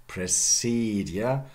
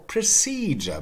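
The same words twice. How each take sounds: First: "Procedure" as pruh-SEED-yuh; slow "Procedure", d and y apart; conservative Modern English. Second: "procedure" as pruh-SEE-juh; progressive pronunciation. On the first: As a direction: say "Procedure" without a j sound. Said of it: "then in Modern English". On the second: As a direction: merge d and y of "procedure" into j. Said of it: "both is possible". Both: Shown as a demonstration.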